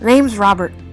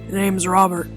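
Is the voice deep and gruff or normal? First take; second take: normal; deep gruff. First: It is said in his normal voice. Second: It is said in a deep, gruff voice.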